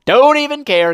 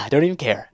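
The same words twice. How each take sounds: First: Higher, louder don't even care; higher, louder carefree. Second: Said in the usual way. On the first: Real, not acted. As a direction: toss it off gleefully.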